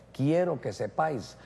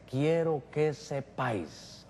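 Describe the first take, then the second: First: Said in the usual way. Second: "Quiero que sepáis" drawn out slowly and spoken softer, each word weighed; "Quiero que sepáis" stretched word by word in a hushed, pointed voice; slow, soft emphatic telling. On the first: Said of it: "Que la cabeza de todo hombre es Cristo". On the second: Retold or imitated. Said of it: "le tendrían que decir".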